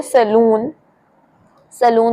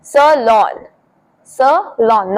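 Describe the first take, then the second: First: "सैलून" said as suh-LOON; long oo ending in "सैलून"; common mispronunciation. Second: "सैलून" slowly as suh-LAWN; correct pronunciation. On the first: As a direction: say "सैलून" to rhyme with moon. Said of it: "बहुत सारे लोग बोलते हैं". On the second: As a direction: press the second part, "lawn", in "सैलून". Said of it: "second part होगा उस पे आपको ज्यादा". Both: Shown as a demonstration.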